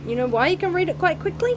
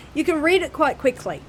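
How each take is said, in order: First: Higher and fast, rising on "quickly"; teasing rhetorical question. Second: Said in the usual way. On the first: Real, not acted. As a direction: toss the question up at them quickly.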